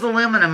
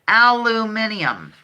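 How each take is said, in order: First: It is said the American way, four syllables. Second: It is said the British way, five syllables.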